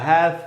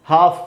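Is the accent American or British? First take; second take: American; British. First: It is said in an American accent. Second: It is said in a British accent.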